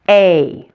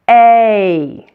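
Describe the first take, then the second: First: The vowel is said at a normal speed. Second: The vowel is said slowly and drawn out. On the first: "it sounds like this" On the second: "If you slow it down"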